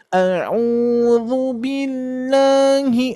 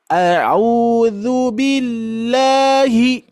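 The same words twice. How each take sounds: First: Nasal fault demo. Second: Slow high chant, sound released freely; chanted, let the voice go, not through the nose; open chant. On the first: Teacher showing the nasal mistake to avoid. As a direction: chant sung through the nose, the wrong way. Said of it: "jangan sampai masuk ke hidung". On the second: Chanted, teacher showing the correct open sound. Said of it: "lepas saja". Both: Shown as a demonstration.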